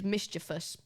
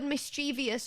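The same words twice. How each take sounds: First: It has no extra sound before '-ous'. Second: It has an extra 'ee' sound before '-ous'. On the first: The speaker calls it right. "The correct word is mischievous. You say it like this" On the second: The speaker calls it wrong. "put this I in it here, this is the I that changes it"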